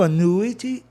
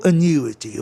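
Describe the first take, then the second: First: Annuity as "a-NOO-i-ty", no glide; "noo" variant. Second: Annuity as "a-NYOO-i-ty", with a y-glide; "nyoo" variant. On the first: Teacher offering one of two valid forms, annuity said "a-NOO-i-ty". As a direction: stress a plain "NOO" in annuity. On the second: Teacher offering the other valid form, annuity said "a-NYOO-i-ty". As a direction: slip a y into annuity before the U. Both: Shown as a demonstration. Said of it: "Tanto faz".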